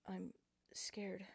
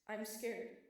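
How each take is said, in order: First: Breathless frightened whisper; scared whisper. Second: Louder, desperate cry; scared plea. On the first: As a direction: whisper it as a weak plea. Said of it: "the weak plea leave my lips". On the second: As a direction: plead it aloud. Begging inner plea. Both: A narrator's reading.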